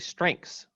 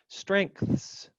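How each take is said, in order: First: The th sound is left out. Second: Every sound is spoken, including the th. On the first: "I don't think I pronounced the th ... I think I just say strengths" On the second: "pronounced that way, as I just did, I think you could argue there is eight sounds"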